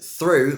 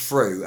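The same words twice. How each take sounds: First: Said in the usual way. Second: "through" starting on F, like "froo". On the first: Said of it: "the T H sound is replaced". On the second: Shown as a demonstration. Teacher showing learners "through" said as "froo". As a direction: swap the TH of "through" for F. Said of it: "with a V or an F".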